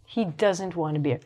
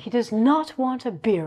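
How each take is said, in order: First: Does not is contracted to doesn't. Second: Does not is said as two full words. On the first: This is the natural everyday way to say it. "doesn't is just the short or the natural form of does not" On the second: This is a very formal way to say it. "Very formally"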